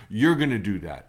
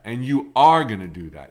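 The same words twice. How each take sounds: First: Said in the usual way. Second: Are punched louder, the rest level; you ARE gonna do that, with are stressed. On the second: Shown as a demonstration. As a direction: lean hard on the word are.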